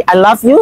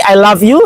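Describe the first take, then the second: First: "love" ends on an unvoiced F, said "laf"; "love" as "laf" with a hissed F, the mistaken way. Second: "love" ends on a voiced V, said "lav"; "love" as "lav" with a buzzing V, the correct way. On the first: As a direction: say "I love you" with an F in "love". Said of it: "I love yang pakai F adalah menertawakan". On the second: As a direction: say "I love you" with a clear V in "love". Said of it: "I love pakai V adalah cinta". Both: Shown as a demonstration.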